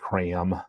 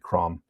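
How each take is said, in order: First: The word is said with an American vowel. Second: The word is said with a British vowel. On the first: The speaker calls it wrong. "such an American pronunciation" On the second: The speaker calls it right. "so it's probably crom"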